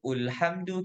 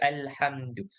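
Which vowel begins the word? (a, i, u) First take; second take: u; a. First: The word begins with a 'u' vowel. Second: The word begins with an 'a' vowel. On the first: The speaker calls it wrong. "tak baca ulhamdu" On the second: The speaker calls it right. "kita akan baca alhamdu"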